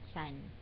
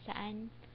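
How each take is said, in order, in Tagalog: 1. Mabilis itong pinaiikli at nagiging isang pantig. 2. Binibigkas ito nang buo, na may dalawang pantig.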